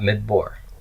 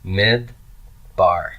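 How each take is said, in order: First: The second vowel is a short 'oh' sound. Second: The second vowel is a long 'ah' sound. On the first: The speaker calls it wrong. "Not mid-bor" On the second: The speaker calls it right. "it must be a long A, a kamet"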